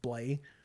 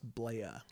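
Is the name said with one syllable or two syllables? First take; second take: one; two. First: The name is said as one syllable. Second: The name is said as two syllables. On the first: The speaker calls it wrong. "she thought it was pronounced Blay" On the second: The speaker calls it right. "But it's pronounced Blaya"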